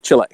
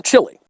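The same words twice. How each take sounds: First: Chile with the ending as "lay"; alternative pronunciation. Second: Chile said like "chilly", ending in an ee sound; Anglicized pronunciation. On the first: Speaker correcting himself on Chile, ending in an ay sound. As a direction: say Chile as chee-LAY, pitched lower. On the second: Speaker offering one way to pronounce Chile, ending in ee. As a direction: say Chile as CHILL-ee, pitched higher. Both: Shown as a demonstration. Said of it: "wherever you want to pronounce it".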